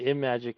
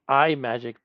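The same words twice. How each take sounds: First: The name begins like the word 'imagine'. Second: The name does not begin like 'imagine'. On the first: "more sensible of a pronunciation because it sounds like Imagine" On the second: "I think I always said iMagic back in the day"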